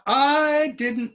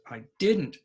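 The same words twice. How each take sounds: First: The word 'I' is stressed. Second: The word 'I' is unstressed. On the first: The speaker calls it wrong. "not I didn't know. We don't say that" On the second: The speaker calls it right. "Now notice I is not stressed"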